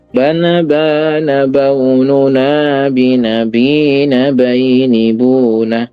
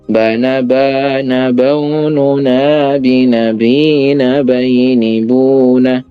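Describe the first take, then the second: First: The melody rises first, then drops at the end. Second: The melody stays flat, then drops at the end. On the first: "naikkan dulu baru turun" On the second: "Yang pola pertama datar, terus datar lagi"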